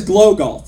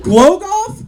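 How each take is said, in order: First: Said in the usual way. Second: "Glow golf?" pitched higher with a rising question; can't believe what she just said; incredulous. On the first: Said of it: "And she says". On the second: Acted. Incredulous echo of her answer.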